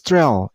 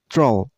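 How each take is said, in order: First: The syllable has a vowel like in 'bell'. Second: The syllable has a vowel like in 'roll'. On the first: The speaker calls it wrong. "the last syllable isn't pronounced as trell" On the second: The speaker calls it right. "It's troll"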